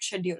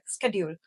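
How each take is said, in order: First: It is said with a British pronunciation. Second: It is said with an American pronunciation. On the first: "not schedule" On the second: "like schedule"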